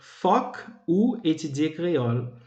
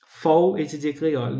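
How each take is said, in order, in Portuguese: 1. As palavras iniciais são ditas na forma completa. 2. As palavras iniciais se fundem em uma sílaba curta. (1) "em vez de dizer foc ou étudier créole" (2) "a forma foc pode ser reduzida e cai esse K final"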